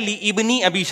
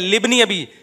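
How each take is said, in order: First: The initial vowel of ibni is pronounced separately. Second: The initial vowel is dropped, linking into libni. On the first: The speaker calls it wrong. "सही है ली इब्नी अबी शैबा। अबे भाई इब्नी अबी शैबा नहीं है" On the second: The speaker calls it right. "ये अलिफ साइलेंट है"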